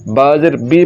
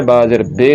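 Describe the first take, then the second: First: बा ज़ेर बी with a pure ee; maroof ee. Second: बा ज़ेर बे ending on bay; majhool ay. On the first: Teacher spelling the correct vowel, clear ee. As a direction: finish on a clear बी, bee. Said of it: "पढ़ना है". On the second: Teacher spelling the wrong vowel, ay sound. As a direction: open the final vowel to बे, bay. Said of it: "नहीं पढ़ना". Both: Shown as a demonstration.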